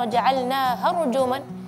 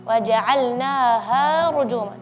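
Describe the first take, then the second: First: The vowel after "ha" is cut short, rushed. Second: The vowel after "ha" is drawn out long. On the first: The speaker calls it wrong. "Jangan terlalu cepat" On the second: The speaker calls it right. "setelah ha ada alif mad"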